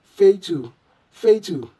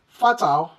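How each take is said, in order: First: Fatal as FAY-tu with long A; correct fatal. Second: Fatal with open A, FAH-tal; mispronounced fatal. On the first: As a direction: repeat fatal with "fay" first and a weak dark ending. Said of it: "the correct way should be". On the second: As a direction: say fatal with both A's alike, as "fah-tal". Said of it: "this word shouldn't be". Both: Shown as a demonstration.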